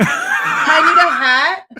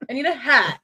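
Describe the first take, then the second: First: Slow, laughing "I need a hat"; laughing, drawn out. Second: Said in the usual way. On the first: Real, not acted. Planning the costume while laughing, slow and drawn out. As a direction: stretch "I need a hat" out slowly through a laugh.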